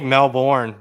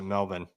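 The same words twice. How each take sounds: First: It is said with a non-Australian pronunciation. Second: It is said with the Australian pronunciation. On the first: The speaker calls it wrong. "you think Melbourne. Nope" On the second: The speaker calls it right. "the people in Australia pronounce it Melbourne"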